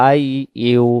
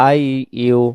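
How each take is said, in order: Both takes have the same delivery.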